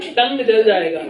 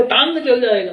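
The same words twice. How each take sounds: First: Said in the usual way. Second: "टांग" with a long open aa for tongue; Bengali-accented tongue. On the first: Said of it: "तो टांग के, टंग". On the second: Retold or imitated. Speaker repeating the woman's warning, "टांग" with long aa. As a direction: say "टांग" with the vowel of the Hindi word for leg. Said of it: "Prabhupada का ऐसा accent".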